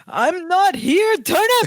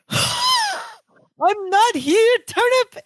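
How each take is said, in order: First: I'm not here, Turnip shouted high and slow; a high, strained cry of panic; panicked gasp-shout. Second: Very high, drawn-out mimic of the cry; copying Twinkasetti. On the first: Retold or imitated. Twinkasetti panics at the phone, high slow shout. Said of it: "he clutches his chest". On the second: Balky mimics Twinkasetti's cry into the phone, very high and slow. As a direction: echo his panicked squeal, stretched way out. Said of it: "exactly the same way".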